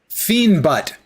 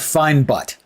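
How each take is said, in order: First: The first word sounds like "fiend". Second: The first word sounds like "fine". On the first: "I'm glad I went with the pronunciation of Fiend" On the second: "otherwise I'd be saying, oh, we have Fine Butt"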